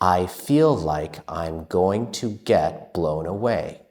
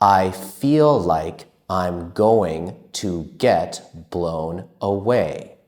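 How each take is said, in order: First: It is spoken at a moderately quick pace. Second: It is spoken at a slow, careful pace.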